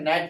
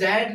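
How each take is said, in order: First: The word starts with an N sound. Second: The word starts with a G sound. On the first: The speaker calls it right. "बल्कि क्या पढ़ते हैं नेट पढ़ते हैं" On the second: The speaker calls it wrong. "इसको जैंट नहीं पढ़ते"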